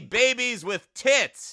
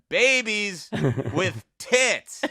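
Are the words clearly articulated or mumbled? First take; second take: mumbled; clear. First: The words are spoken without careful articulation. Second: The words are spoken with careful, crisp articulation. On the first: The speaker calls it wrong. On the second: The speaker calls it right.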